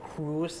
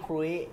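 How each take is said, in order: First: The word ends with a clear z sound. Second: The word ends without any z sound. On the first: The speaker calls it right. "เรือสำราญเนี่ยมันอ่านว่า, cruise" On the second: The speaker calls it wrong. "ไม่ใช่ครุย"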